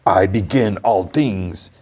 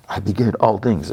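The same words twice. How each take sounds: First: Grand declaration. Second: Imitated echo. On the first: Retold or imitated. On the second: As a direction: trail it like an echo of a proclamation. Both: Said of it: "It, like, echoes".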